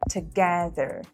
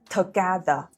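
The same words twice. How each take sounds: First: The t is relaxed with escaping air. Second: The t is hard, tongue on teeth. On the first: The speaker calls it right. "you let a small amount of air escape" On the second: The speaker calls it wrong.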